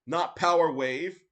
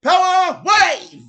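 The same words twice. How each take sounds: First: Said in the usual way. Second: "Power Wave" yelled much higher, louder, slow; battle cry "Power Wave" in Japanese accent; imitating Terry. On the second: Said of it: "he's like".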